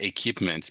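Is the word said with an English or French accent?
French. It is said with a French accent. The speaker calls it wrong. "It's not equipment"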